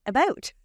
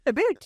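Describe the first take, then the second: First: Lightly Canadian "about", pitched up; Canadian accent. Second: "about" turned into "a boot", higher pitch; mock Canadian "a boot", pitched up; exaggerated Canadian accent. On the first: Retold or imitated. Young actor answers an accent test, Canadian accent on "about". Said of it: "say about". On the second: Actor jokes about her own accent, mock Canadian "a boot". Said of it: "child with a Canadian accent".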